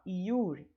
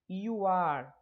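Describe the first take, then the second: First: The words are shortened into one syllable. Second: Two separate words are said in full.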